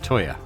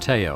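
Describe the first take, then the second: First: The first syllable sounds like 'toy'. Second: The first syllable sounds like 'tee'. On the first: The speaker calls it right. "but it's Toya" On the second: The speaker calls it wrong. "I keep calling him Teo"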